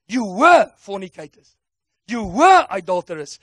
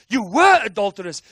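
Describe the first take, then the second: First: Louder, each "were" struck hard; forceful preaching. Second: "You were adulterers" shouted, "were" punched. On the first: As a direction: read the list like a verdict. Preacher reading the list forcefully. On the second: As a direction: throw the repeat out with full force. Repeated louder as a shout. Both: Acted.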